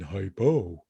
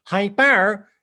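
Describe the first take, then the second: First: Blocked-nose, stuffed-up voice; hyponasal. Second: Piercing nasal voice, higher and louder; hypernasal. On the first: Voice teacher recapping two voices for students, hyponasal take. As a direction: say it as if you have a cold. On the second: Voice teacher recapping two voices for students, hypernasal take. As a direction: push the word up into the nose. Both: Shown as a demonstration. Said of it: "what those two voices sound like".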